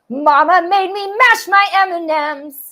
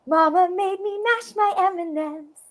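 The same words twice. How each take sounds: First: The voice sounds angry. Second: The voice sounds surprised. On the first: "I could also be really angry" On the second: "Or just like surprised"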